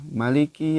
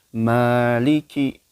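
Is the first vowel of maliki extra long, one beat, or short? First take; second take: short; one beat. First: The first vowel is short. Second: The first vowel is held one beat. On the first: "membaca maliki itu uh, pendek ya" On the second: "bacanya satu ayunan aja"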